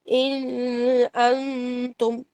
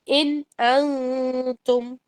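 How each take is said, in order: First: The n of 'in' is held with nasalization. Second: The n of 'in' is clear, without nasalization. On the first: The speaker calls it wrong. "इन अंतुम नहीं, ऐसे नहीं पढ़ेंगे" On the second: The speaker calls it right. "इनका आपने गुन्ना छोड़ देना है"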